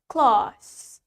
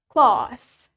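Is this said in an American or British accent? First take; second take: British; British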